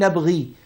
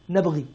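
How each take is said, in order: First: The final long vowel is kept. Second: The final long vowel is dropped. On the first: "instead of saying" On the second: "So he says, نَبْغِي instead of saying"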